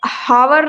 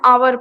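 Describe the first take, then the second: First: The word begins with an h sound. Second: The word begins directly with a vowel. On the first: The speaker calls it wrong. "यहाँ पे हावर नहीं पढ़ना है" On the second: The speaker calls it right. "आवर पढ़ना है"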